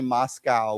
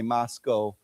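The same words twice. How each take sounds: First: The last syllable rhymes with 'cow'. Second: The last syllable rhymes with 'go'. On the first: The speaker calls it wrong. "we don't say Moscow" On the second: The speaker calls it right. "we say Moscow"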